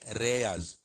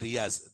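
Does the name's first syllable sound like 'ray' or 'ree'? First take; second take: ray; ree. First: The first syllable sounds like 'ray'. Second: The first syllable sounds like 'ree'. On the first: This is how some customers say the name. "they call me Reyaz, Ray, because R E is Ray" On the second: This is the name as its owner says it. "they don't call me Riaz"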